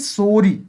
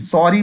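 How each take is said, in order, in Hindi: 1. पहला स्वर एक लंबा 'o' ध्वनि है। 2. पहला स्वर 'sorry' का खुला स्वर है। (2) "सॉरी नहीं"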